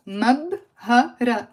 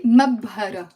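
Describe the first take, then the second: First: مبهرة broken into "mab... ha... ra"; slow, separated syllables in مبهرة; syllable-by-syllable demonstration. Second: Said in the usual way. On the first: Shown as a demonstration. Teacher modelling the pepper word, مبهرة slowly syllable by syllable.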